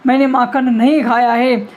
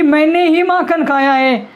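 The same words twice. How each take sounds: First: नहीं picked out as a firm denial; stress on नहीं. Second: मैंने ही raised and slowed; stress on ही. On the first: Teacher spells out Krishna's denial to mother, stressing नहीं. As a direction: lean on नहीं, then let खाया है fall. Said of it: "इसका मतलब मैं नहीं". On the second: Teacher tells what the mother heard, slowly stressing ही. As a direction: punch ही, joined to मैंने, as if confessing. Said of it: "मैया ने क्या सुन लिया". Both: Shown as a demonstration.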